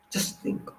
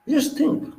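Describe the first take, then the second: First: Breathy whisper, no voice at all. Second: "Just think" said voiced and much higher. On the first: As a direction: lean in and whisper it like a secret. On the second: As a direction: lift the voice up high on "Just think". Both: Shown as a demonstration.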